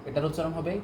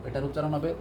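The two takes are said the same way.

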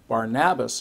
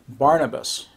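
First: The name has an older, original-language pronunciation. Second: The name has its usual modern English pronunciation. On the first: This is how people said it in ancient times. "is how they would have pronounced it" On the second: This is how people say it today. "that's how we pronounce it"

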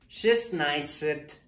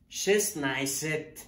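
First: The word is shortened, dropping middle sounds. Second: The word is shortened, dropping middle sounds.

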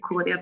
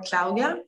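First: The name has an adapted Australian English pronunciation. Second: The name has its original Swedish pronunciation. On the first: This is how locals now say the name. "Here in Australia, we say Claudia, though, sort of adapted" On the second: This is how the name was said during childhood. "as I'm growing up saying"

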